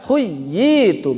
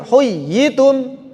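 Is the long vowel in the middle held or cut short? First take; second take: held long; cut short. First: The long vowel is kept and held long. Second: The long vowel is dropped and cut short. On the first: The speaker calls it right. "tapi baca" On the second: The speaker calls it wrong. "jangan sampai jadi"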